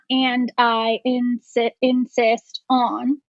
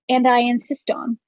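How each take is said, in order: First: The words are said separately, without linking. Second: The words run together like one word. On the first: The speaker calls it wrong. "It's not" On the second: The speaker calls it right. "it's just one word"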